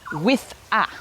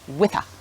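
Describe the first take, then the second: First: The two words are said separately. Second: The two words are joined together.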